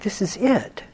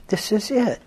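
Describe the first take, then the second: No difference in how they are said.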